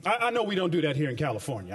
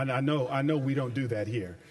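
First: Said in the usual way. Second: Wry repeat dropped lower, "I know we don't do that here"; dry ironic aside, pitched lower. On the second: Shown as a demonstration. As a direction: say it again under your breath, tongue in cheek.

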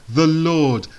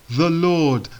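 No difference in how they are said.

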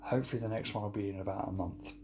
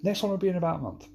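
First: Softer, rushed throwaway line; quick aside. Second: Higher, louder, rushed mock promise; ironic promise. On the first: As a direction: toss it off quickly and quietly. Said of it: "I would usually be saying about now". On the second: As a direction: rattle off a promise nobody believes. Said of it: "we know what happens when I say that". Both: Shown as a demonstration.

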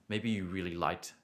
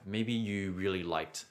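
Both takes have the same delivery.

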